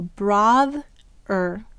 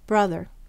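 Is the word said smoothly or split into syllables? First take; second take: split; smoothly. First: The word is split into two syllables. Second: The word is said as one smooth unit. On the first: It is said syllable by syllable to help spell it. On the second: It is the everyday way of saying the word.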